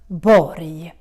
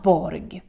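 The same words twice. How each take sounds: First: The word ends with a soft Y sound. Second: The word ends with a hard G sound. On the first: The speaker calls it right. "pronounce it as a Y sound, almost like you're saying yes" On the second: The speaker calls it wrong. "because that's not correct"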